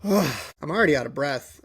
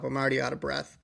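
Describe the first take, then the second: First: Sigh, then winded words; out of breath. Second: Quieter, winded and deflated; out of breath. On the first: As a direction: exhale heavily before speaking. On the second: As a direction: let the breath run out. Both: Real, not acted.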